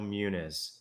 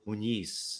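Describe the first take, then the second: First: The middle consonant is a plain n sound. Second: The middle consonant is an ny sound. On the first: "So there's no Inye" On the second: "put a little thing over the top of it and"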